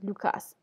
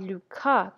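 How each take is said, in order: First: The name ends with a clear S sound. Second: The name ends without an S sound. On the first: The speaker calls it right. "on devrait prononcer le S dans Cas" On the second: The speaker calls it wrong. "j'aimerais bien que la dame à la voix pointue m'appelle comme il faut"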